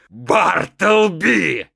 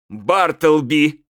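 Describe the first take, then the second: First: The name is shouted at full volume. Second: The name is called more loudly. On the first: "заорал я" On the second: "громче"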